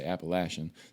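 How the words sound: It is said the way locals in Appalachia say it.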